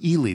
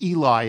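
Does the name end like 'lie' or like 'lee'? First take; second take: lee; lie. First: The name ends with a 'lee' sound. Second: The name ends with a 'lie' sound. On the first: The speaker calls it right. "but Ely" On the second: The speaker calls it wrong. "it's not pronounced Eli as in the former interception machine for the Giants"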